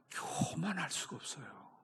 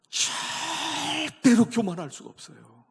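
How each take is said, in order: First: Whispered, unvoiced "교만할 수가 없어요"; hushed whisper that sets up the shout. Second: High, loud, slow "절대로 교만할 수가 없어요"; a slow, full-force pulpit cry; preaching shout. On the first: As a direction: breathe it out as a secret. Preacher whispers then shouts. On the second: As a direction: thunder it out over the congregation. Preacher shouts after the whisper. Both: Real, not acted.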